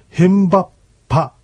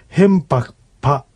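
First: The K merges into a doubled P sound. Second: A K sound is heard before the P. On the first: "これが石狩川の言葉では、ヘンバッパとなる" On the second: "ヘンパクパとなった場合にK の音、そして次にP の音が来ます。"

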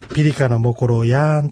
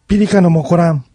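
First: Said slowly, the final syllables kept separate. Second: Said quickly, the final syllables run together. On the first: "ゆっくり言ったら" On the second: "実際の発音では"

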